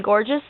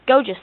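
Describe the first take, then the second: First: Said in the usual way. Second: "gorgeous" said as "goh-jus", dropping the r; put-on British "gorgeous", long o and no r; accented pronunciation. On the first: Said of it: "I said gorgeous". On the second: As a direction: say "gorgeous" with the first syllable like "go". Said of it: "You mean gorgeous?".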